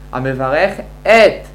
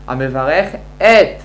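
First: The aleph of 'et' is pronounced separately. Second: The aleph of 'et' is pronounced separately.

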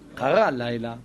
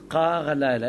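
First: The first word is stressed on its last syllable. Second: The first word is stressed on its first syllable. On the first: "הייתי אמור לקרוא" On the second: "במקום שאנחנו נקרא את זה קרה לילה"

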